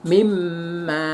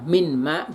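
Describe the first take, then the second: First: The n merges into a doubled m sound. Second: The n is said separately before the m. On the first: This is the Quranic recitation form. "Kalau Al-Quran bacanya ini mimma" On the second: This is the spelled form used outside Quranic recitation. "kalau ejaan atau selain Al-Quran dibaca min ma gitu tidak apa-apa"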